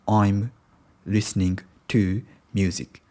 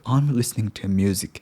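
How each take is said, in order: First: Each sound is pronounced clearly and separately. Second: The sounds are reduced and run together. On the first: The speaker calls it wrong. "not I'm listening to music" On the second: The speaker calls it right. "I'm supposed to pronounce like"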